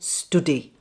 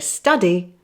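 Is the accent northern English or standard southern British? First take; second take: northern; standard southern. First: The vowel is the rounded northern English 'oo' sound. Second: The vowel is the open standard southern British sound. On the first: "they say" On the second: "I say"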